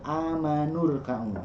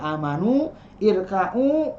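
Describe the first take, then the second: First: The words join, dropping the vowel before rka'u. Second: The words stay apart, with the vowel before rka'u. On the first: "ketika dibacanya sekaligus hilang semua hamzah wasalnya" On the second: "ini asalnya dari amanu, irka'u"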